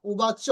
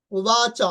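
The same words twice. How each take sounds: First: উবাচ said short with the চ cut off; clipped উবাচ. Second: উবাচ said with the final চ held long; drawn-out উবাচ. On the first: Teacher shows students the wrong short উবাচ. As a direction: clip উবাচ as the wrong version. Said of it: "উবাচ না". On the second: Teacher shows students how to draw out উবাচ. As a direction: stretch the end of উবাচ. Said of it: "টানা এরকম উচ্চারণ করতে হবে". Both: Shown as a demonstration.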